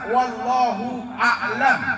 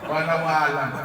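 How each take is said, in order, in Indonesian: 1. Frasa itu diucapkan lengkap dengan 'lahu'. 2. Frasa itu disambung, bunyi 'lahu' yang jelas hilang. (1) "Jangan salah-salah" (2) "Bukan walau alam"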